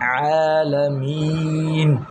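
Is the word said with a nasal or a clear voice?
clear. The word is said without nasal sound. The speaker calls it right.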